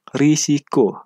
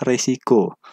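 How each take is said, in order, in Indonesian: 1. Suku kata pertama diucapkan dengan vokal i. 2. Suku kata pertama diucapkan dengan vokal e. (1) "kata baku yang pertama itu risiko" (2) "kata yang tidak bakunya adalah resiko"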